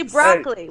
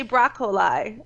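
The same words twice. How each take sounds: First: BROCCOLI as BROCK-lee; American broccoli. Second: BROCCOLI as BROCK-o-lie; mock Australian broccoli. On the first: Shown as a demonstration. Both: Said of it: "We don't say broccoli".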